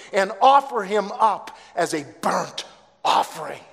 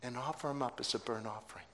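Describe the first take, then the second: First: Decree it with full force; commanding God. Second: Hushed. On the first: Acted. God's command, end. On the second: Real, not acted. Preacher repeats command to parents.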